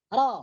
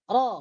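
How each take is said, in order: No difference in how they are said.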